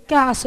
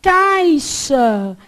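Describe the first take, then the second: First: Caixa said as "caxa"; short Caixa with no i glide; dropped i. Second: Caixa drawn out with the i sounded; loud, slow "CAI-xa"; full diphthong. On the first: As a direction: drop the i: "cá-xa". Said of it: "Esse I some, você fala o quê?". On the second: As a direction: pronounce the i in Caixa, stretched. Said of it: "Esse I some". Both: Retold or imitated.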